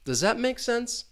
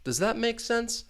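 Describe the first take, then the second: First: The pitch falls at the end. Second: The same.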